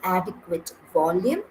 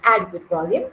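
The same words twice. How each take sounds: First: The words are crisp and clearly articulated. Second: The words are slurred and poorly articulated. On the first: The speaker calls it right. "that is well enunciated" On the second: The speaker calls it wrong. "that's not very well enunciated"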